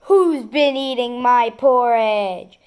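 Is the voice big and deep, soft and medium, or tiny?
big, deep. A big, deep, growling voice. "In his great big bear voice he growled"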